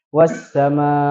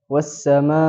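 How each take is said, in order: First: The ending is only lengthened, without stress push. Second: The ending gets a stress push on the hamza. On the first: The speaker calls it wrong. "kalau tidak ditekan, dia nanti seolah-olah hanya dengan memanjangkan ma-nya saja" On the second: The speaker calls it right. "ada naber ditekan"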